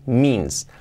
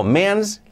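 First: "means" as "miins", one syllable; correct long ee. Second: "means" read as "me-ans"; spelling pronunciation. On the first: Teacher giving the real pronunciation, "miins" for "means". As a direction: stretch one ee vowel in "means". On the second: Teacher reading it as written, "me-ans" for "means". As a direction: voice both vowels of "means" as in Spanish. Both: Shown as a demonstration. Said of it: "la pronunciación es means".

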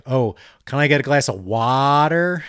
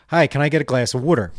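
First: "water" with a long, open "wah"; careful, overcorrected "water" as "waah-ter"; overemphasized A. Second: "water" said as "wooder"; quick, casual order with "water" as "wooder"; Delco pronunciation. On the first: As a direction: exaggerate the A in "water", stretched out. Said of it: "overemphasized the A". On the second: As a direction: say "water" with the oo of wood. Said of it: "when I slowed it down, I realized". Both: Retold or imitated.

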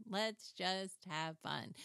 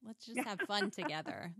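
First: Slow, gentle coaxing; slow tender coaxing to her sewing machine. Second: Bright friendly coaxing; mock-cheerful invitation to her sewing machine; cheery to the machine. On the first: Retold or imitated. Repeats line to sewing machine.

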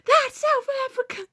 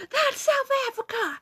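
First: High, exaggerated teacher voice; mock teacher correction. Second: High, exaggerated teacher voice; mock teacher yell. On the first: Mimicking the teacher scolding a wrong answer, high and theatrical. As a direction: pitch way up to play the indignant teacher. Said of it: "Kid says something wrong". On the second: Retelling the teacher yelling at Austin, pitched way up. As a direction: squeal it like the outraged teacher. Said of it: "Mister Allen yelled".

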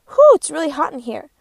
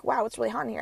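First: A loud, hammed-up "Whew" from an overheated muffin; hot muffin voice. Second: Said in the usual way. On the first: First muffin in the joke complaining loudly about the oven heat. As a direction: blow out the heat like a sweaty muffin. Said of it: "The first muffin says". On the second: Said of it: "the first muffin is saying, like".

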